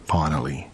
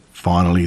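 First: Hushed. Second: Said in the usual way. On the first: A narrator's reading.

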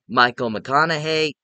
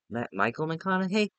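First: Said in the usual way. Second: Michael McConaughey? rising higher and much softer, doubting; unsure question. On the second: Real, not acted. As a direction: catch the name slip and question it. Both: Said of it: "Matthew McConaughey".

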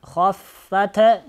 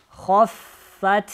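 First: "хаффат" with a stray vowel after t; faulty bouncing t ending "хаффат"; released T. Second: "Хаффат" ending on an unreleased vowel-less t; held final T. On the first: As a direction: wrongly let go of т, like "хоффатэ". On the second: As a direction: close "Хаффат" cleanly on т. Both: Shown as a demonstration. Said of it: "не отпускайте".

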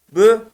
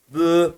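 First: Bü short, higher and louder; punchy, short Bü; short vowel. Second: Bü with a long, held ü; drawn-out Bü; lengthened vowel. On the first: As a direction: keep the ü of Bü brief. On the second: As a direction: stretch the ü of Bü. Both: Shown as a demonstration. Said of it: "Uzatıyor sadece".

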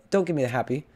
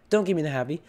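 Both takes have the same delivery.

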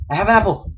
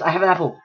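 First: Higher, louder triumphant repeat; excited. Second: Said in the usual way. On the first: Real, not acted. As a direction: say it again, thrilled.

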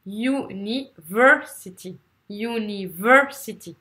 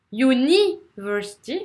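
First: "university" slowly split, VER strong, falling after; stress on third syllable. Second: "university" as u-NI-versity, NI pushed up and long; wrong stress on second syllable. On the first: Teacher modelling the rhythm for students, u-ni-VER-sity. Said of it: "ça sera la troisième". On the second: Teacher showing what nobody understands, u-NI-versity. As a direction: wrongly punch NI in "university", rising at the end. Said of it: "Si vous faites". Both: Shown as a demonstration.

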